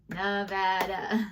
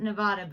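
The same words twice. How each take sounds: First: Nevada is said the way locals say it. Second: Nevada is said the way outsiders say it. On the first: The speaker is from the state. The speaker calls it right. "the true Nevadans say Nevada" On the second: The speaker is not from the state. The speaker calls it wrong. "Everybody outside of Nevada calls it Nevada"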